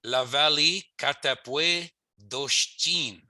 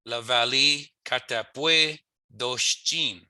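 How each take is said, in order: First: La Valley Katapwe Doshtin spoken very slowly; slow Michif phrase. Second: La Valley Katapwe Doshtin very slow again; repeated slow model. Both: Shown as a demonstration. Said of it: "so I would say".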